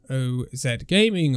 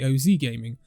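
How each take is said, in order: First: The name is pronounced the non-American way. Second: The name is pronounced the American way.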